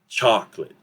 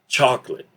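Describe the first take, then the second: First: The middle vowels are reduced or dropped. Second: The same.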